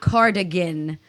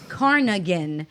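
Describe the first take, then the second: First: The middle consonant is a 'd' sound. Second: The middle consonant is an 'n' sound. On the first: The speaker calls it right. "not cardigan" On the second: The speaker calls it wrong. "I thought that was it was pronounced as carnigan"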